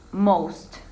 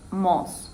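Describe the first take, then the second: First: Said in the usual way. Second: "mos" with no T sound at the end; dropped final T. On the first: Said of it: "She said mos without the T sound". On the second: Shown as a demonstration. Student showing how the Japanese speaker said it, "mos" without final T. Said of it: "mos without the T sound".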